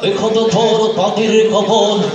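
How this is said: It is spoken in a mumbling, toothless old voice. "দাঁত একটা নাই"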